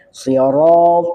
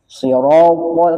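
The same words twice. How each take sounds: First: The sound is heavy without rounded lips. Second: The lips are rounded and pushed forward. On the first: The speaker calls it right. "harusnya tebalnya" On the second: The speaker calls it wrong. "kan ada yang gitu, sira sira. Jadi mulutnya monyong, bukan tebalnya"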